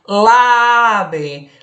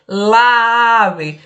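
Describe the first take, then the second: First: Lave said as one word, article glued to the noun; wrong form lave. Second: Lave repeated a touch louder, slowly, as the wrong form. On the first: Teacher showing the class the wrong form lave. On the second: Teacher repeating the wrong form lave to the class. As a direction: repeat lave so the clash is heard. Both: Shown as a demonstration. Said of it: "Eu não poderia jamais dizer lave".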